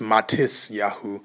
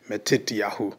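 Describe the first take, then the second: First: The middle consonant is an s sound. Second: The middle consonant is a t sound. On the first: This is how Yiddish speakers say the name. "Some may know it as Matisyahu from the uh, Yiddish speakers" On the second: This is the biblical Hebrew form of the name. "from biblical Hebrew perspective, it will be Matityahu"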